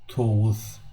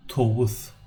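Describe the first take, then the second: No difference in how they are said.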